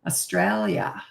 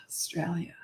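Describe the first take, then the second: First: Said in the usual way. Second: "Australia" whispered under her breath, much softer; whispered echo. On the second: Real, not acted. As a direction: repeat "Australia" to herself in a whisper. Whispered echo of viewer's location.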